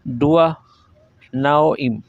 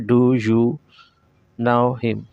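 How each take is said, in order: First: "Do you" blends together and the h is dropped. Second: Each word is separate and the h is pronounced. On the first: The speaker calls it right. "Real English में ... डू यू को डुआ बोलता है" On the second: The speaker calls it wrong. "ऐसे पढ़ाया जाता है"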